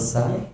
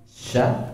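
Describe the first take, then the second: First: The syllable begins with a plain 's' sound. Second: The syllable begins with an 'sh' sound. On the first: The speaker calls it wrong. "Sya atau sa?" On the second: The speaker calls it right. "Sya atau sa?"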